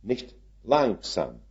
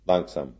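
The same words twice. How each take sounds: First: Slowly. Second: Soft and unhurried; slow, drawn out. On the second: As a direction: say langsam slowly and low. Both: Shown as a demonstration. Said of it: "slow oder langsam".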